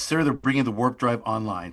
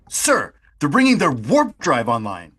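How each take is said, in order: First: Sir and warp drive get no special emphasis. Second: Sir and warp drive are strongly emphasized.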